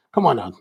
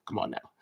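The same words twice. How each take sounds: First: Said in the usual way. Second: Much softer, playful chiding; gently ribbing a waitress; quiet mock protest to the waitress; soft teasing. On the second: Teasing the waitress about chopsticks.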